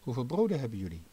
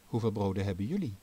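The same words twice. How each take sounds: First: The word 'jullie' is not stressed. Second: The word 'jullie' is stressed. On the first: The question is how much bread there is. "Met des te meer klem kan hier de vraag gesteld worden" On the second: The question is how much bread the listeners have, unlike others. "Of moeten we de klemtoon ergens anders leggen? ... hier hebben ze geen broden"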